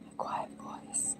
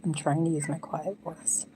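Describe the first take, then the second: First: Soft breathy whisper. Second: Said in the usual way. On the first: Real, not acted. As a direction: whisper it very quietly.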